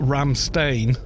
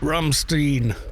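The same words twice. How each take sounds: First: The name is said with an English pronunciation. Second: The name is said with a German pronunciation. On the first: The speaker calls it wrong. "Not Ramstein" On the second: The speaker calls it right. "with German pronunciation, surely"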